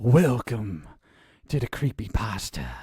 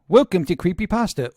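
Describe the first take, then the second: First: It is said in a dramatic, theatrical way. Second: It is said in a flat, bored way.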